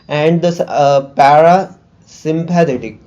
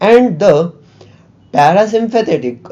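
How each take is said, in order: First: The gap is filled with a hesitant 'uh'. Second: The gap is a short silent pause. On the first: The speaker calls it wrong. "It is just filling the gap" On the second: The speaker calls it right. "I would prefer to like have a pause here"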